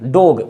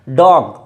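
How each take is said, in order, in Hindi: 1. यह स्वर स्पष्ट 'oh' जैसा बोला जाता है। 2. यह स्वर 'oh' और 'ah' के बीच का बोला जाता है। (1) "डोग है, डोग, वो गलत है" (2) "ओ और आ के बीच का है डॉग"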